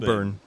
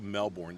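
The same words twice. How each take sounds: First: It is said with an Australian accent. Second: It is said with an American accent.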